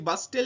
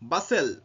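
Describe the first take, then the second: First: A t sound is heard in the middle. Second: No t sound is heard in the middle. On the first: The speaker calls it wrong. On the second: The speaker calls it right.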